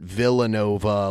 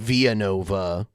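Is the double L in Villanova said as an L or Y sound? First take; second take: L; Y. First: The double L is said like an L. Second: The double L is said like a Y. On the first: This is an anglicized pronunciation. "the Whiteys would pronounce it Villanova" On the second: This is the original Spanish pronunciation. "It's probably pronounced Villanova"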